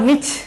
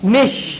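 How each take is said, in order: First: The word ends with a 'ch' sound. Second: The word ends with a 'sh' sound. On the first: The speaker calls it wrong. "Banglish যদি করে এটাকে নিচেই হবে" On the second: The speaker calls it right. "এটার উচ্চারণটা হবে নিশ"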